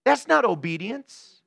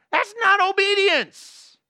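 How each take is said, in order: First: Said in the usual way. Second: "not" pitched high, slow and drawn out; emphatic verdict. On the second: Real, not acted. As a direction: lift "not" high and stretch the line. Repeated verdict, stretched high.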